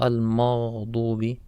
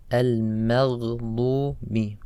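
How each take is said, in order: First: "al-maghdubi" as "al-maadubi", gh dropped; ghayn lost. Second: "al-maghdubi" slowly with gargled gh; clear ghayn. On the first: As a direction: mispronounce "al-maghdubi" without the gargled gh. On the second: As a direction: draw out "al-maghdubi", gh clearly sounded. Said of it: "And also on ghayn". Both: Shown as a demonstration.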